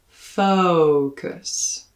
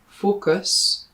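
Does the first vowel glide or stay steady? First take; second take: glides; steady. First: The first vowel glides from uh to oo. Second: The first vowel stays steady without gliding. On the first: The speaker calls it right. "make sure to include a slide in the first syllable" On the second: The speaker calls it wrong. "rather than a focus"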